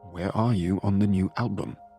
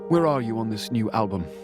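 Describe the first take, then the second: First: The question is said slowly, with sharp bite. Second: The question is said at a normal, faster pace.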